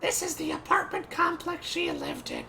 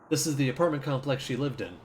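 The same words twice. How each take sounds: First: It is read in a put-on cartoon voice. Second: It is read in a natural speaking voice. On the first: "I'll read her like Marge" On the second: "Can't do that"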